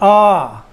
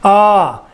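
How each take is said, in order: The two takes are said the same way.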